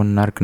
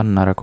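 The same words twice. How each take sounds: First: नर्क with r and k run together; wrong form. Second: नरक with a vowel between r and k; pure नरक in two syllables, 'na-rak'; pure form. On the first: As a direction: say नर्क as 'nark', no vowel after r. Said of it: "नर्क नहीं होता". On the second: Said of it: "this is the pure version". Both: Shown as a demonstration.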